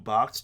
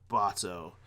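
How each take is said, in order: First: The name ends in a hard consonant cluster. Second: The name ends in an open vowel sound. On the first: "with the hard C H T at the end" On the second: "instead of"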